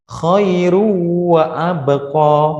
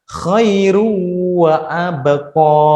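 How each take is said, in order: Both takes have the same delivery.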